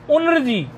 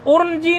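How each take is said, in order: First: उन्रजी as un-r-ji; n before r. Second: उर्नजी as ur-n-ji, pitched high; mispronounced. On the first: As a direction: sound n first, then r, in उन्रजी. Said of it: "नकार का उच्चारण रेफ से पहले होना चाहिए". (उन्रजी में रेफ से पहले नकार) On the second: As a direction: put r before n in उर्नजी. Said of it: "नहीं". (उर्नजी में पहले रेफ, फिर नकार) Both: Shown as a demonstration.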